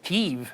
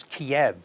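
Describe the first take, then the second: First: "Kyiv" said KEEV, a long E sound at the end; "Kyiv" the Ukrainian way, long final E; Ukrainian pronunciation. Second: "Kiev" said KEE-ev, a short E sound at the end; "Kiev" the old Russian way, short final E; Russian pronunciation. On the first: Host teaching viewers the Ukrainian "Kyiv", long E ending. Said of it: "with a long E sound at the end". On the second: Host explaining the Russian spelling, "Kiev" with a short E ending. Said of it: "with a short E sound at the end". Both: Shown as a demonstration.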